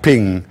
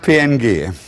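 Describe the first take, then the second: First: It is said as the single word ping. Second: It is spelled out as three letters. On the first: The speaker calls it right. "Man spricht es Ping. Jeder sagt Ping" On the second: The speaker calls it wrong. "keiner sagt PNG"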